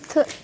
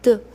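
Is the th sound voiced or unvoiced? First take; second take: unvoiced; voiced. First: The th sound is unvoiced, without throat vibration. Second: The th sound is voiced, with throat vibration. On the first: "And when you say soft sound, you will feel no vibrations in your throat" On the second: "When you say the hard sound or voiced sound of digraph T H, you will feel little bit vibrations in your throat"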